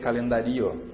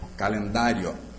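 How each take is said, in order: First: The final i and o are split into two syllables. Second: The final i and o glide into one syllable. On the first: The speaker calls it wrong. "Se eu separasse, eu teria que ouvir as duas vogais bem" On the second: The speaker calls it right. "Quando eu pronuncio calendário"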